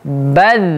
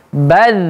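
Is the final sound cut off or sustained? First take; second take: sustained; sustained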